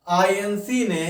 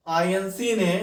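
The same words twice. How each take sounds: The two takes are said the same way.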